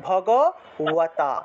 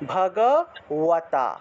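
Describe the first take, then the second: First: The lips stay apart, giving a w sound. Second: The same.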